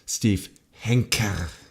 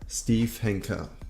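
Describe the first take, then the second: First: The last name gets strong, heavy emphasis. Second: The last name gets ordinary, light emphasis.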